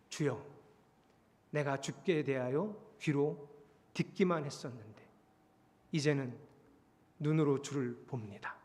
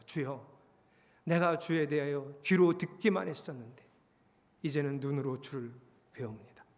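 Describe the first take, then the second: First: Hushed, reverent admission; humble confession. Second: Low, mildly sorrowful prayer; acted penitent bowed before God, voice sinking; subdued confession fading at the end; tearful repentance. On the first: Acted. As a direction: confess it quietly, with long pauses. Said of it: "그냥 말한 게 아니고요". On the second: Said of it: "눈물을 흘리고 하나님 앞에 납작 엎드려서".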